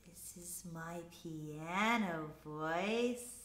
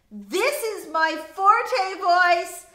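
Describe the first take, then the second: First: Soft, slow, lowered voice; piano voice. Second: Loud, high, slow projection; forte voice. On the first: Teacher demonstrating dynamics to class, softly. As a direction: keep it gentle and low, drawn out. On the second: Teacher demonstrating dynamics to class, loud. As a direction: project strongly to the whole room. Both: Shown as a demonstration.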